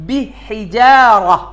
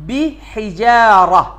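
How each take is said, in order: The two takes are said the same way.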